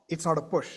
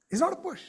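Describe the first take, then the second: First: Said in the usual way. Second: "It's not a push" said again much higher, stress on "not"; higher repeat. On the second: Shown as a demonstration. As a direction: lift the whole of "It's not a push" up high on the repeat, hitting "not".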